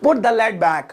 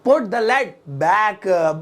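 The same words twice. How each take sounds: First: Said in the usual way. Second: Very slow, each word stretched out; slow model repeat. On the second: Shown as a demonstration. Teacher repeats the new English sentence for learners, slow and drawn out. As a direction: draw out "put the lid back।" word by word.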